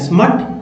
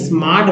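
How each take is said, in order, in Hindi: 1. स्वर एक छोटी 'uh' ध्वनि है। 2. स्वर एक लंबी 'ah' ध्वनि है। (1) "अ तो नहीं, स्मट बोलेंगे क्या?" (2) "स्मार्ट में ए को आ बोलते हैं"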